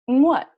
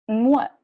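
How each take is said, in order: No difference in how they are said.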